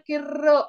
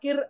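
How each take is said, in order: First: The r sound is long and rolled. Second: The r sound is short and plain. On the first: "आपण वाचताना किर्र असं म्हणायचं" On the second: "त्या किर असं लिहिलंय ना"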